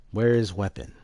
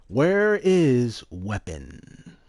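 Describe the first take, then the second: First: Said in the usual way. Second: Slow, louder, stretched out; slow drawn-out. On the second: Acted. Repeating the game's question slow and louder. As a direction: drag out WHERE slowly and loud.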